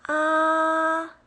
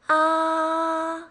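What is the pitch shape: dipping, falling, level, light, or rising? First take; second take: level; level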